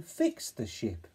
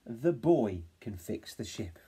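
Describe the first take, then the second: First: Fix the ship slowly; slow caption. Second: Put-on the boy can fix the ship slowly; slow sentence. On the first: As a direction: stretch the caption. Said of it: "for the caption". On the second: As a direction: stretch the longer sentence. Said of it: "extended it into a longer sentence". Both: Shown as a demonstration.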